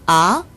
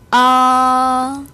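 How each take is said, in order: First: The pitch rises from mid to high. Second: The pitch stays high and level throughout. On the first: "음이 올라가죠" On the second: "제일성 발음해 봅니다"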